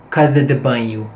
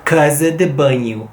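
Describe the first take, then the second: First: Said in the usual way. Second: Casa de banho with a clipped Lisbon banho; Portuguese casa de banho. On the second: Shown as a demonstration. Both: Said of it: "they use".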